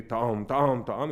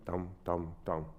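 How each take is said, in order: First: Sung, steady tam. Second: Rushed tam. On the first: Teacher sings the pianist's current steady version. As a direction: sing it steady and full. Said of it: "For now, you play". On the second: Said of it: "sounds a bit rushed". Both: Shown as a demonstration.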